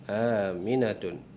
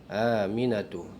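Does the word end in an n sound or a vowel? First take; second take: n sound; vowel. First: The word ends with an n sound. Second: The word ends with a plain vowel. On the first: The speaker calls it wrong. "salah, bukan Aminatun ya" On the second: The speaker calls it right.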